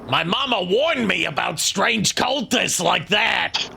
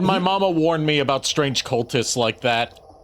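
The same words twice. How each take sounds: First: It is said in a Mario voice. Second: It is said in a normal voice.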